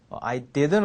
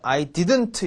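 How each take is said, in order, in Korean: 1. "I didn't"의 t는 거의 묵음이에요. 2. "I didn't"의 t는 분명히 발음돼요. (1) "t는 ... 묵음입니다" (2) "이렇게 하실 필요 없고"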